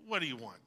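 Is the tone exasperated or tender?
exasperated. It is said in an exasperated tone.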